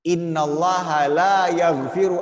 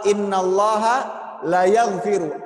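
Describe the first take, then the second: First: The vowel in 'la' is held long. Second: The vowel in 'la' is cut short. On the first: God does not forgive it. The speaker calls it right. "La-nya panjang dua harokat" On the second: God surely forgives it. The speaker calls it wrong. "kalau la-nya dibaca pendek"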